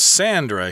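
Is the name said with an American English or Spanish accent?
American English. The name is said with an American English pronunciation.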